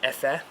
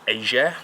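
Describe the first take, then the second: First: The middle consonant is an F sound. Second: The middle consonant is a hard G sound. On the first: "or it might be Efer" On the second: "I think"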